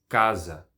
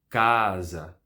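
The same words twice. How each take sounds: First: The first vowel is kept short. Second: The first vowel is held long.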